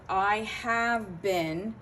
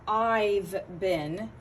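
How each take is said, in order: First: The word 'have' is said in full. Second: The word 'have' is shortened to a 'v' sound.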